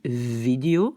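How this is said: It starts with a voiced v sound. "en Flandre, on dit vidéo, c'est un V"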